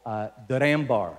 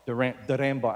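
First: The name is said with a Filipino accent. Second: The same.

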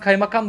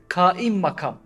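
First: It is said as one word, 'kaymakam'. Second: It is said as two words, 'kaim makam'. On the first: The speaker calls it wrong. "Mesela sen kaymakam dersin değil mi?" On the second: The speaker calls it right. "O kaymakam değil aslında"

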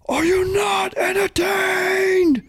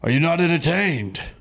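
First: It is delivered with big, intense energy. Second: It is delivered flatly, with little energy.

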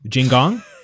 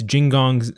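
First: The syllable gong has heavy stress. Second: The syllable gong has light stress.

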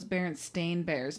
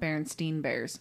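First: The name ends with a 'stain' sound. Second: The name ends with a 'steen' sound. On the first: The speaker calls it right. "actually spelled their last name with an A" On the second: The speaker calls it wrong. "we all thought it was E-I-N"

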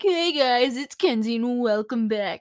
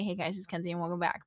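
First: It is said with extra, high energy. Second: It is said plainly, with low energy.

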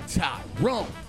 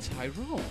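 First: The name is said in a harsh, troubling way. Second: The name is said in a gentle, pleasant way. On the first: Trouble is coming. The speaker calls it wrong. "if we don't say Tyrone" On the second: The person is addressed kindly. The speaker calls it right. "It might be nice"

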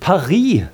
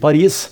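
First: The word is said with a French pronunciation. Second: The word is said with a Norwegian pronunciation. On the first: "selv om franskmennene sier det" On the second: "vi sier Paris"

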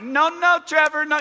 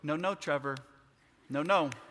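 First: The voice is pitched noticeably higher. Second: The voice is at a normal pitch. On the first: Growing alarm without raising the voice. "you just get higher. It's not really raising your voice" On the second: A calm warning to the child. "So you go"

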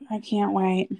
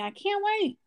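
First: It is said flatly, without much enthusiasm. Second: It is said with lots of enthusiasm.

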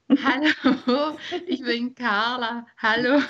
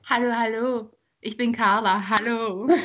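First: It is said while laughing. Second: It is said without laughing.

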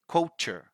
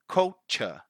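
First: The R in the word is pronounced. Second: The R in the word is not pronounced. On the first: This is the American way. "in American English, they do pronounce the R" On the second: This is the British way. "in British English, we don't pronounce the R"

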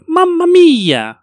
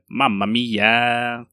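First: It is said in a higher-pitched Mario voice. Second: It is said in a lower-pitched Luigi voice.

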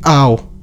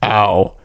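First: The voice sounds light and not manly. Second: The voice sounds deeper and manly. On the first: The speaker calls it wrong. "Why do I say ow like" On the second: The speaker calls it right. "I should say it in a more manly way"

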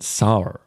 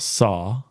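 First: The word ends with an added r sound. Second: The word ends in a plain vowel, no r. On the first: "you went sar" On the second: "When you say some vowel sounds, you add an R sound"

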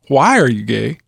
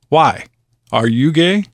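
First: It is said as one question without a pause. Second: There is a pause after "why".

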